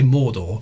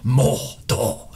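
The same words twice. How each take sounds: First: The first syllable is said plainly, without extra weight. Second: The first syllable is hit hard and gutturally. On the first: "you can't just say Mordor" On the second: "really emphasising the first syllable... really guttural"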